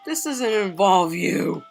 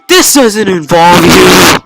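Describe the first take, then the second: First: It is said hesitantly and weakly. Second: It is said forcefully and sharply.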